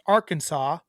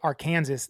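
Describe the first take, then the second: First: The word is not pronounced as it is spelled. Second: The word is pronounced just as it is spelled. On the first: The speaker calls it right. "It's pronounced Arkansas" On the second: The speaker calls it wrong. "when people say Arkansas, they don't like it"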